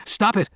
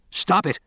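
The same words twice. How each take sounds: First: Even higher frantic shout; repeating the shout, rising in desperation. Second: High, frantic shout; helpless scientist shouting at the flamethrowers. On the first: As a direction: push it further, desperate. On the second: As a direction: demand they stop. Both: A narrator's reading. Carcass being burned, shouting.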